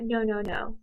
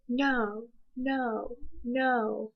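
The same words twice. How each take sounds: First: The three noes are run together without pauses. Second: Each no is followed by a clear pause. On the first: The speaker calls it wrong. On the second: The speaker calls it right.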